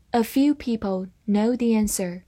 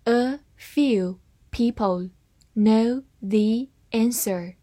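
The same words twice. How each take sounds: First: Said in the usual way. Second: Slow, careful reading of "A few people know the answer"; slowed-down model sentence. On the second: Shown as a demonstration. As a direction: read it slowly. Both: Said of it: "慢慢来读".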